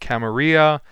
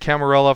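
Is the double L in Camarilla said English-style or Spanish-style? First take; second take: Spanish; English. First: The double L is said the Spanish way. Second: The double L is said as an English L. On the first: "people out there who firmly believe that it should be pronounced Camarilla" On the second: "I've been pronouncing it Camarilla for like 25 years"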